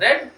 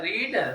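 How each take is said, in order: First: The vowel is short, like 'red'. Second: The vowel is long, like 'reed'. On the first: It is the past form of the verb. "बस पढ़ते उसको क्या है, रेड" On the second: It is the present form of the verb. "उच्चारण क्या होता है, रीड"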